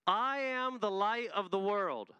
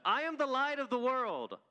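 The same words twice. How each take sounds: First: Slow, higher declaration for the crowd to echo; measured call-and-response line; declaration to repeat. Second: Much higher, louder, stronger take of the line; full-voiced proclamation with weight on the; bolder declaration. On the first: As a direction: say it slowly for them to repeat. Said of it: "I want you to repeat after me". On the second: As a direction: really proclaim it this time. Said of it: "Let me try one more time". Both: Shown as a demonstration.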